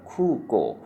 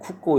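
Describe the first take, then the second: First: The vowels are pronounced long. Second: The vowels are pronounced short. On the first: The speaker calls it right. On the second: The speaker calls it wrong.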